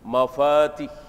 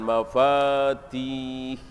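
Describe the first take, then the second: First: The vowel in the last syllable is short. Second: The vowel in the last syllable is long. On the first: This is how it is read in this verse. "Di sini pendek" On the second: This is the form the word pattern would normally give. "panjang mestinya kan"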